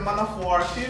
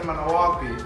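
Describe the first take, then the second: First: The R sound in the name is pronounced. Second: The R sound in the name is dropped. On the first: This is the standard way to say it. "instead of saying Manafor Key" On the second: This is how the islanders say it. "we don't pronounce the R, we just say Manawaki"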